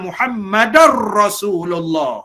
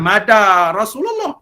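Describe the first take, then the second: First: The name is said in full, all syllables clear. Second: The name is clipped, only its last part heard. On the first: The speaker calls it right. "Kita mengucap" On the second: The speaker calls it wrong. "Bukan madar Rasulullah"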